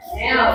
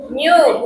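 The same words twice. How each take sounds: First: "new" said as "neh-ow", without the y-glide; mispronunciation demo. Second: "new" said as "nyoo"; pronunciation correction. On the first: Teacher showing pupils what to avoid, "new" as "neh-w". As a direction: show the mistaken "new", like "neh-w". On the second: Teacher correcting pupils, "new" as "nyoo". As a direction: give "new" a clear y-glide into oo. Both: Shown as a demonstration.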